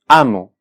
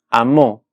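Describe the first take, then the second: First: The stress is on the first syllable. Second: The stress is on the last syllable. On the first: "la palabra amo tiene la sílaba tónica en la penúltima, en este caso, la primera sílaba" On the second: "amó tiene la sílaba tónica en la última sílaba, en la sílaba mo"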